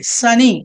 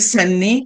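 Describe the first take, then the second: First: The middle n sound is short and single. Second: The middle n sound is pressed and doubled. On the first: The speaker calls it right. "we have to pronounce only one letter" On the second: The speaker calls it wrong. "ఇలా నొక్కి నొక్కి చెప్పక్కర్లేదు"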